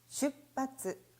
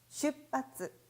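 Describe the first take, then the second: First: The middle is pronounced as a doubled 'pp'. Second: The same.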